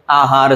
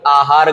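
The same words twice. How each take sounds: First: आहार said as "aa-haar"; long first vowel. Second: आहार said as "a-haar"; short first vowel. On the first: Teacher giving the right word, आहार with long aa. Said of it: "आहार सही है". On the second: Teacher quoting the common mistake, आहार with short a. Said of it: "आहार गलत है". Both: Shown as a demonstration.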